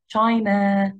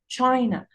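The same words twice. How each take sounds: First: The second syllable is stressed and fully pronounced. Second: The first syllable is stressed, the second is reduced. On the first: The speaker calls it wrong. "ما قلتهاش China" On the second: The speaker calls it right. "no I said it China China China. So the stress is on the first syllable"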